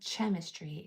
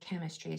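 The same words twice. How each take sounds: First: The word begins with a CH sound. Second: The word begins with a K sound. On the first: The speaker calls it wrong. "It's not saying chemistry" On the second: The speaker calls it right. "It's saying chemistry. So that C H is making the K sound"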